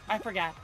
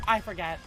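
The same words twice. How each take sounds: The two takes are said the same way.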